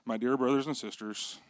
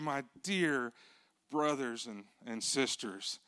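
First: It is said flatly, without emotion. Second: It is said warmly, with emotion.

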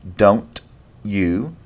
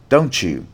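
First: The t and y are said separately. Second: The t and y merge into ch.

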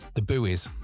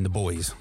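First: Buoys is said as two syllables, boo-eez. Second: Buoys is said to rhyme with boys. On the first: "as the Americans say" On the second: "I mean the boys"

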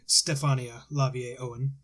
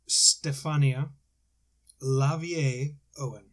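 First: It is said at normal speed. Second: It is said more slowly.

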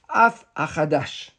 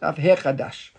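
First: The second word starts with a bare 'a' vowel. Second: The second word starts with an 'he' syllable. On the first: The speaker calls it wrong. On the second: The speaker calls it right.

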